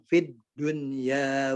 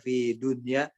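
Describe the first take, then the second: First: The d is pressed and held, sounding doubled. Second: The d is short, not held or doubled. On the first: The speaker calls it right. "padahal fid tekan saja" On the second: The speaker calls it wrong. "kalau kita nggak ditekan"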